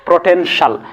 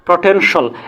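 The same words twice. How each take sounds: First: The ending is a single short syllable: shal. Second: The same.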